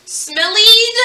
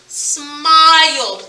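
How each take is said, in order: First: "smillied" said as SMILL-eed, with an E sound; wrong reading with long E. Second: "Smiled" drawn out as one syllable with long I; correct pronunciation. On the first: Teacher testing a silly double-E spelling, "smillied" mispronounced as SMILL-eed. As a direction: say "smillied" with an ee before the final d. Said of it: "is this the E sound?". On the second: Teacher correcting the silly reading, "Smiled" stretched with a long I. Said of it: "The word is smiled". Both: Shown as a demonstration.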